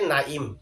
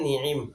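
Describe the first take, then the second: First: The first vowel is a, the second is i. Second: Both vowels are i, with a throat sound between. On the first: "আইনের মধ্যে জের দিয়ে" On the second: "নুন এবং আইন উভয় হরফের মধ্যে জের দিয়ে"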